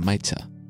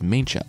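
First: No n sound comes before the ch. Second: An n sound comes before the ch. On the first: The speaker calls it right. "it's really closer to Maicha" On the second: The speaker calls it wrong. "I pronounced it as Maincha"

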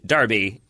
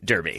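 First: It is said with a British pronunciation. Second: It is said with an American pronunciation. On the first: "British Derby" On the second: "American Derby"

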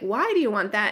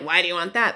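First: It sounds curious and open. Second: It sounds judgmental and dismissive.

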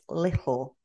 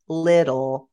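First: The middle t is a glottal stop. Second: The middle t is pronounced as a t sound. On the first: "My hardest one was the glottal stop" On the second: "instead of little"

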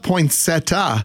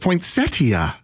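First: One sound in the word is dropped. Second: Every sound in the word is kept. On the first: The speaker calls it wrong. "it's not poinsettia" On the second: The speaker calls it right. "It's poinsettia"

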